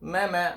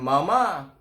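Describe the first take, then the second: First: The word is said light and soft. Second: The word is said heavy and harsh. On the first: The speaker calls it right. "mama terlembut dia" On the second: The speaker calls it wrong. "macam garang kan"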